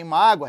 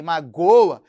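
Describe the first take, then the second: First: "mágoa" stressed on the first syllable, MÁ-gwa. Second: "magoa" punched loud on the middle syllable, ma-GÔ-a; stress on GO. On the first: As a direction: hit MÁ in "mágoa". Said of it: "Olha a sílaba tônica em mágoa". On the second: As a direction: lean hard on GÔ in "magoa". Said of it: "é acento da sílaba tônica". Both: Shown as a demonstration.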